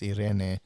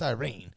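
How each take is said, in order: First: The name is pronounced the Spanish way. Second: The name is pronounced the English way. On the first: The speaker calls it right. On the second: The speaker calls it wrong.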